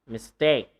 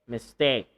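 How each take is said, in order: The two takes are said the same way.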